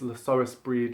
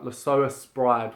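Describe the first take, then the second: First: The last word rhymes with 'need'. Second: The last word rhymes with 'ride'. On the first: The speaker calls it right. "I know it is" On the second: The speaker calls it wrong. "my pronunciation's wrong"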